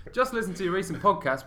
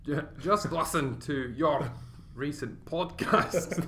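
First: Said in the usual way. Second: Put-on slow, halting Scottish accent on alternate words; Scottish every other word. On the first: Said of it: "That was hard". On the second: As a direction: labour over a bad Scottish accent, word by word. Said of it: "do it for every other word".

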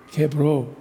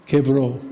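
The two takes are said the same way.

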